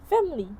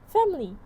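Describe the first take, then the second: Both takes have the same delivery.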